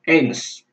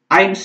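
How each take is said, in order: First: The E and I are sounded as separate vowels. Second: The vowel glides together like English 'eye'. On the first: The speaker calls it wrong. "bukan eins" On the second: The speaker calls it right. "Eins ya"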